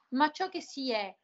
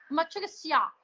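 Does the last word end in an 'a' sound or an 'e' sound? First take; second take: E; A. First: The last word ends in an e sound. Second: The last word ends in an a sound. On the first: "quindi diceva l'importante non è ciò che si ha ma ciò che si è" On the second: "lei nella sua dizione palermitana"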